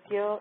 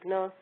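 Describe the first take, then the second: First: The syllable is said with a 'gy' sound. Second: The syllable is said with a 'gn' sound. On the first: This is the Hindi pronunciation. "In Hindi it's pronounced like Gya" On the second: This is the Gujarati pronunciation. "in Gujarati it's pronounced like Gna"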